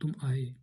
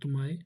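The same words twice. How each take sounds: First: The pitch falls at the end. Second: The pitch rises at the end. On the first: "इसमें अवरोह है" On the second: "ये प्रश्न चिन्ह लगा तो इसमें आरोह है"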